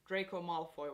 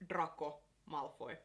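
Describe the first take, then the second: First: The name is said with English sounds. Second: The name is said with Finnish sounds. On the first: The speaker calls it right. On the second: The speaker calls it wrong.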